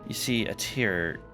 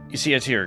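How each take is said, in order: First: It is read in a creepy put-on voice. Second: It is read in a normal speaking voice.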